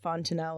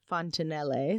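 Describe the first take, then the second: First: The name is said like the English word. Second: The name is said with Italian sounds. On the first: "if you pronounce it Fontanelle, which I think might be incorrect" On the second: "I think Fontanelle sounds more Italian"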